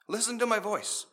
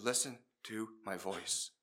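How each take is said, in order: First: Higher and firmer, pressing the word "to"; firm repeat. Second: Low, soft and slow, steadying the pilot; calm low instruction. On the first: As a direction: repeat it firmly so he holds on. Controller repeats the instruction. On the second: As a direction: say it slowly and softly to calm him. Controller voice guides lost pilot. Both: Retold or imitated.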